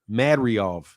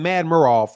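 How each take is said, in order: First: The name ends with a 'riov' sound. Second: The name ends with a 'murov' sound. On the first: The speaker calls it right. "but I think it's Mad Riov" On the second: The speaker calls it wrong. "I was saying Mad Murov"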